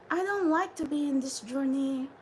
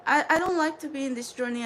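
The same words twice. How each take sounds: First: Said in the usual way. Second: "I don't like to be in this journey" rattled off fast; rushed. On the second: Shown as a demonstration. Telling her Soul Tribe she dislikes this journey, fast. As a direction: hurry through "I don't like to be in this journey". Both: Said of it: "I'm going to be speaking like this".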